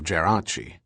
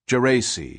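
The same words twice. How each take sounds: First: The name is said the Italian way. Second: The name is said the American way.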